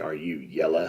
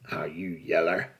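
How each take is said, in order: First: It is said in a plain accent. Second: It is said in a drawling Western accent.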